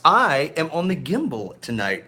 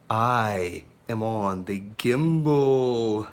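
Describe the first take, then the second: First: Said in the usual way. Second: Lower, slow, drawn-out unveiling; slow dramatic reveal. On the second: Acted. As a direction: savour the reveal like a big announcement. Showing off his new gimbal.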